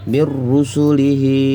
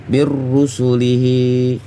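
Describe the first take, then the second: No difference in how they are said.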